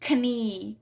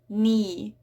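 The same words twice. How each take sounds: First: The K sound is pronounced. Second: The K sound is silent. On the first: The speaker calls it wrong. "So it's not" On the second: The speaker calls it right. "It's definitely knee"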